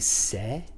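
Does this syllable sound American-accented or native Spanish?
native Spanish. It is said the native Spanish way. The speaker calls it right. "that's going to be se"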